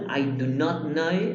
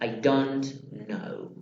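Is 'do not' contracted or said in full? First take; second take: full; contracted. First: Do and not are said as two words. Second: Do and not merge into one syllable. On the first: "en la forma full" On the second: "o la forma short"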